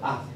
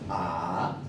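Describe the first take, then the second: First: The syllable is light and weak. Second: The pitch dips low then rises. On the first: "el tono neutro queda como por defecto" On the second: "Tercer tono es baja y sube"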